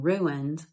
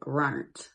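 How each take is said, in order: First: It is said in standard pronunciation. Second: It is said in old Appalachian pronunciation. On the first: "Instead of saying" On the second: "they would say"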